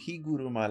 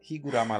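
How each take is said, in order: First: The third vowel is a Japanese-style 'u'. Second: The third vowel is an American-style 'a'. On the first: "that's more of a Japanese pronunciation" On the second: "I was specifically saying Higurama"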